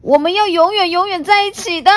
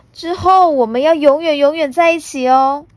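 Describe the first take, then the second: First: Loud, fast, falling firm; fierce vow. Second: High, loud, ending in a rise; happy child promise. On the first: T-rex vowing forever together before attacking, loud and firm. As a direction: swear it before charging. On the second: Puna promising forever together, bright rising child voice. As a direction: make the promise gleefully. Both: Acted.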